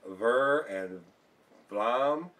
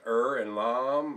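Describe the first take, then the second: First: The words begin with a V sound. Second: The words begin without a V sound. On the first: "I don't know if it's Ver and Vlam" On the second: "the V is not pronounced over there. It's just Er and Lam"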